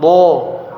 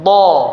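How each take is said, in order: First: The lips are pushed forward and rounded. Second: The lips stay neutral, mouth simply open. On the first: The speaker calls it wrong. "jangan bo, bo, bukan bo" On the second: The speaker calls it right. "pinggir lidah sama gigi geraham ditekan baru dilepaskan"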